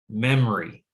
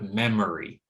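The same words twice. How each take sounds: First: The middle syllable is dropped. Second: All three syllables are pronounced.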